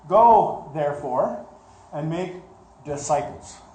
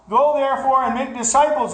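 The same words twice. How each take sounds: First: The phrase is read slowly and deliberately. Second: The phrase is read quickly, rushing through. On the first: Each word is being considered carefully. The speaker calls it right. "But let's look at it" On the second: It is recited from memory without reflection. The speaker calls it wrong. "Get it out as fast as we can"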